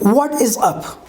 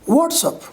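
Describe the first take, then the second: First: All three words are said fully and separately. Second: The first two words are contracted together.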